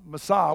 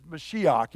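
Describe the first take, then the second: First: Said in the usual way. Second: Mashiach said the Hebrew way, stress on the last syllable with a throaty final ch. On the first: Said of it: "That word anointed is". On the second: Shown as a demonstration. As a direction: Mashiach as Hebrew, ending in a guttural ch. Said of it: "the verbal form of Mashiach".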